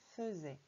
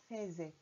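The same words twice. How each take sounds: First: The first vowel is a weak 'uh' sound. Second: The first vowel is an open 'eh' sound. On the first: The speaker calls it right. "il faut dire faisait" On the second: The speaker calls it wrong. "ça ne se dit pas faisait"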